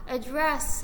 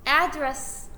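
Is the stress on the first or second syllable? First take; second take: second; first. First: The stress is on the second syllable. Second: The stress is on the first syllable. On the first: It is the verb meaning to deal with something. "뒤에 강세를 두면 동사니까 해결하다" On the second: It is the noun meaning a place where someone lives. "앞쪽에다가 강세를 두면 명사니까 주소라는 뜻"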